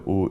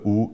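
First: The vowel is said with lazy, unrounded lips. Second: The vowel is said with rounded, forward lips. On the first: The speaker calls it wrong. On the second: The speaker calls it right.

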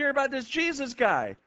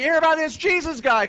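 First: The question is said at normal volume. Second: The question is said loudly.

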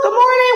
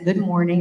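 First: It is said loudly and energetically. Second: It is said quietly and subdued.

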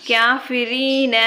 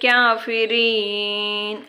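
First: The word ends with a short a vowel. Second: The word ends on the n consonant. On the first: The speaker calls it right. "காஃபிரீன அப்படின்னு சொன்னாலே அல்ஹம்துலில்லாஹ் முழுமையாக ஓதுங்க" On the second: The speaker calls it wrong. "காஃபிரீன்னு சொல்கிறதுக்கு பதிலாக"

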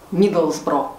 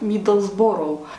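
First: The ending is reduced to a short 'bro'. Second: The ending is said as a full 'borough'. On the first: The speaker calls it right. "произносите название правильно" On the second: The speaker calls it wrong. "так как мы привыкли, что все города в Англии, оканчивающиеся на Бороу, изначально мы называли город Миддлсбро"

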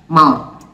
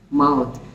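First: The final th is voiceless, without vocal cord vibration. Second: The final th is voiced, with vocal cord vibration. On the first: It is the noun, the body part. "Here I do not vibrate my vocal cords" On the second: It is the verb, to touch with the mouth. "Then in verb, it has the sound of d"

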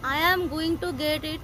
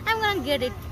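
First: Every word of 'going to' is said in full. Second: 'Going to' is shortened into 'gonna'. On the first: "ଏତେ ଲମ୍ବା କହିବା ଅପେକ୍ଷା" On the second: "ଆପଣ simple କହିଦେବେ"

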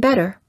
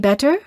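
First: The middle consonant is a quick tapped D. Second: The middle consonant is a clear T. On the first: The speaker calls it right. "we say better" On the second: The speaker calls it wrong. "we don't say better"

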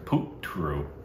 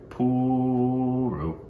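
First: The t sound is clearly pronounced. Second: The t sound is left out.

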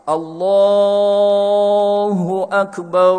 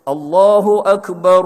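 First: The long vowel in Allah is held longer. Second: The long vowel in Allah is held briefly. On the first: "empat harakat" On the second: "hak nombor satu"

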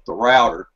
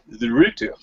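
First: Router is said in an American accent. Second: Router is said in a British accent.

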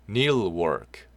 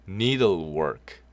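The two takes are said the same way.

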